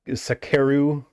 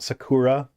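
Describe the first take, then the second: First: The name ends with an 'eru' sound. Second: The name ends with an 'ura' sound. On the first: The speaker calls it right. "It's Sak- Sakeru" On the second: The speaker calls it wrong. "not Sakura"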